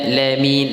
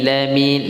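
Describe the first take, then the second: The two takes are said the same way.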